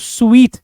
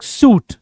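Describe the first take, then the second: First: The word sounds like 'sweet'. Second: The word sounds like 'suit'. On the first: The speaker calls it right. "इसको स्वीट कहते हैं" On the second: The speaker calls it wrong. "रॉन्ग pronounce"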